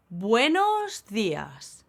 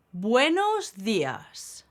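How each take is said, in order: Both takes have the same delivery.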